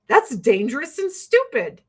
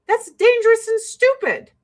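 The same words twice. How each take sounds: First: Said in the usual way. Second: Higher, louder and hammered; emphatic verdict. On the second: Real, not acted. Scolding hikers who ignore danger, emphatic verdict. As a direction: spit out the verdict hard.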